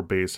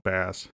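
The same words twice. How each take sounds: First: "bass" said like "base"; alternate pronunciation. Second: Said in the usual way. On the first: Shown as a demonstration. Unsure of the fish's name, offering "bass" pronounced as "base". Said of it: "however you pronounce it". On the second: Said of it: "or bass, however you pronounce it".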